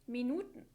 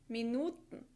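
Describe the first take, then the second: First: The long vowel has standard German length. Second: The long vowel is drawn out, Austrian-style.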